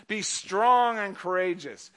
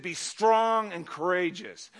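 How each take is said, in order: First: "Be strong and courageous" again slow, "strong" leaned on; a second deliberate slow read; slow emphatic repeat. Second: "Be strong and courageous" said slowly, weight on "strong"; slow, deliberate stress on "strong"; "strong" stretched and leaned on; slow emphatic quote. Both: Shown as a demonstration.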